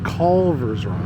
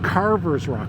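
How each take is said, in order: First: The first word is said with an L sound. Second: The first word is said with an R, no L. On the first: The speaker calls it right. "it's Culver's Rock" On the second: The speaker calls it wrong. "I've been pronouncing it wrong. It's not Carver's Rock"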